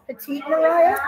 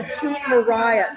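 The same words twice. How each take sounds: First: Petite Mariah? asked with a rising question tune; questioning rise. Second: Petite Mariah. said slowly, settled on a falling tune; confirming statement. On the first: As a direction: raise the end of Mariah, asking to check. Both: Real, not acted. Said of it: "Petite, yeah".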